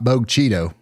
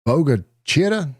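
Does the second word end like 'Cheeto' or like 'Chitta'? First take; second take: Cheeto; Chitta. First: The name is said as 'Bogue Cheeto'. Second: The name is said as 'Boga Chitta'. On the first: The speaker calls it wrong. "Not Bogue Cheeto" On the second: The speaker calls it right. "the correct local pronunciation for Bogue Chitto is Boga Chitta"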